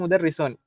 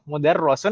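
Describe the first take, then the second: First: The vowel after the doubled r is 'i'. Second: The vowel after the doubled r is 'a'. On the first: The speaker calls it right. "Ini kasrah Om ya" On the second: The speaker calls it wrong. "bukan fathah"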